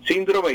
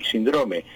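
First: "síndrome" said SIN-dro-me; "síndrome" with weight up front; first-syllable stress. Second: "síndrome" said sin-DRO-me; "síndrome" with weight on the middle syllable; middle stress. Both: Shown as a demonstration. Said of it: "hay doble acentuación".

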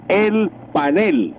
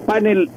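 First: Slow, emphatic "panel", pa-NEL; Spanish stress. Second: "Panel" as PAN-el, higher and stressed up front; English stress. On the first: Professor prescribing the Spanish form, slow "panel" stressed at the end. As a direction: draw it out and land on NEL in "panel". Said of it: "debe ser el panel". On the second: Professor citing the English word, "Panel" stressed on the first syllable. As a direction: pitch up and hit PAN in "Panel". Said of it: "en inglés". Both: Shown as a demonstration.

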